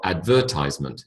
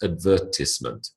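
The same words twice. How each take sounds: First: The syllable before -ment sounds like 'ties'. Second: The syllable before -ment sounds like 'tiss'. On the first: The speaker calls it wrong. "It's not advertisement" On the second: The speaker calls it right. "it's advertisement"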